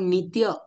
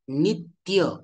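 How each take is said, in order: First: The t sound is said lightly, without extra force. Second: The t sound is pressed with extra force. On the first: The speaker calls it wrong. "आपण नित्य असं म्हणतो का? नाही म्हणत" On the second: The speaker calls it right. "त्याच त वरती आपण जोर देऊन उच्चारण करतो"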